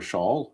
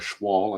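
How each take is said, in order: First: The name has no 'w' sound after 'sh'. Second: The name has a 'w' sound after 'sh'. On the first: The speaker calls it wrong. "I keep wanting to call him Shaw" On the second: The speaker calls it right. "the W's got to be in there somewhere"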